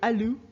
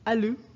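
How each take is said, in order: First: The word is said in a softer, gentler voice. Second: The word is said in a plain, firmer voice.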